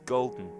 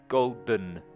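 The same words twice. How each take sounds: First: The d is released straight through the nose. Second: The last syllable has a full vowel before n. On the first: The speaker calls it right. "That's a nasal plosion" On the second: The speaker calls it wrong. "Not golden"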